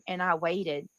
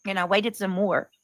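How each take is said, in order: First: Said in the usual way. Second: "waited" stressed, "some" stretched long; drawn-out wait. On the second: Shown as a demonstration. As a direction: lean on "waited" and drag out "some more".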